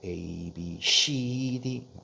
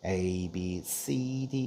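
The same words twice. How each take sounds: First: The letter C sounds like Korean-style 씨. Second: The letter C sounds like English 'see'. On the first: The speaker calls it wrong. "이러고" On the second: The speaker calls it right. "이래야 되는데"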